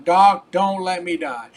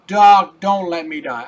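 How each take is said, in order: First: Urgent, louder begging plea; desperate plea. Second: Much louder panicked cry on Doc, then dropping back; desperate cry. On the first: A dying patient begs his doctor, urgent and loud. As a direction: beg the doctor not to let you die. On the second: A dying patient cries out again to his doctor, panicked. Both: Retold or imitated.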